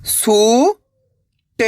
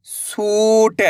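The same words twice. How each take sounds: First: सू, long pause, ट; सूट split slowly, rising first syllable. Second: सूट joined, long ऊ; blended word. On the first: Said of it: "एक अक्षर का उच्चारण करना है". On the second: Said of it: "तो मिलके बन जाएगा". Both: Shown as a demonstration.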